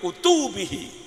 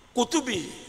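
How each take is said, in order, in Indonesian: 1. Suku kata pertama tidak ditekan. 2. Suku kata pertama ditekan. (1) "Kalau enggak begitu ... Salah" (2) "mesti benar"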